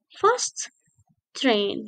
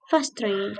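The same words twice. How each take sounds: First: Both t sounds are pronounced separately. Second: The two t sounds merge into one. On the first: The speaker calls it wrong. "it's not fast train" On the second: The speaker calls it right. "but fast train"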